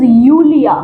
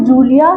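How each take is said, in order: First: यूलिया begun with a "y" glide; German J as Y. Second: जूलिया begun with a hard "j" as in jam; English J sound. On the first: Teacher correcting the name for students, यूलिया with Y sound. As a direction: say यूलिया as "Yoo-lia", no hard J. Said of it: "that is यूलिया". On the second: Teacher showing the mistaken reading, जूलिया with hard English J. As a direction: say जूलिया as "Joo-lia", with English J. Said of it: "that is not". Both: Shown as a demonstration.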